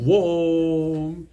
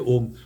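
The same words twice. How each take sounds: First: Om is said in a Malayali accent, howl-like. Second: Om is said in a plain, ordinary way. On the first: "Like our doggies" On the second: "they don't say Om"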